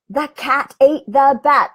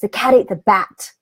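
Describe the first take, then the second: First: It is said with a raised, loud volume. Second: It is emphatic but not loud.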